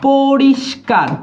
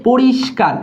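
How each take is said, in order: First: "পরিষ্কার" drawn out, with i and sibilant held; slow, deliberate "পরিষ্কার"; slow syllable demo. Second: Said in the usual way. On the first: Shown as a demonstration. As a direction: stretch "পরিষ্কার" so every sound is heard. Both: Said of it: "ই উচ্চারণ হইছে".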